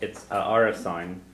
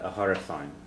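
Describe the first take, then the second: First: The noun starts with a vowel sound. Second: The noun starts with an h sound. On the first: The apartment belongs to a man. "The one when it's his apartment" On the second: The apartment belongs to a woman. "and her apartment"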